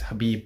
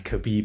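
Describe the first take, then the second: First: The name begins with a breathy H sound. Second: The name begins with a hard K sound. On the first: The speaker calls it right. "you don't say the K in it" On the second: The speaker calls it wrong. "I'm saying it wrong"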